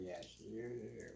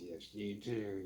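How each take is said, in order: First: Sly echo, softer. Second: Put-on sly old sailor. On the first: Retold or imitated. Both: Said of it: "He's like, um".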